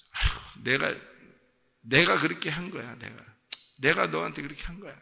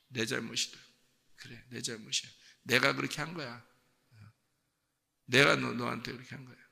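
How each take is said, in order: First: Breathy sigh, then insistent self-blame; self-blaming parent. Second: Soft, subdued acceptance of blame; self-blaming parent. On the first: Parent taking a punished child's blame, acted emphatic lament. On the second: Parent owning a child's fault, quiet resigned self-blame. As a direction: murmur the blame as if to yourself. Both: Acted. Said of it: "부모가 그런 마음을 갖는다".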